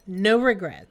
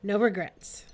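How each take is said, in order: First: "No regrets" repeated much louder and firmer; emphatic louder echo. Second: Said in the usual way. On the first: Real, not acted. Friend echoing her own words, loud and firm. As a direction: belt the echo out with conviction.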